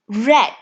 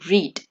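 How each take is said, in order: First: It has the past-tense pronunciation. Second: It has the present-tense pronunciation. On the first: The action happened in the past. "We say it as read" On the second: The action happens now or habitually. "in present tense we say read"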